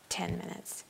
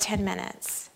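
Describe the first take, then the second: First: "ten minutes" repeated in a breathy whisper; whispered echo. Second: Said in the usual way. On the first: Shown as a demonstration.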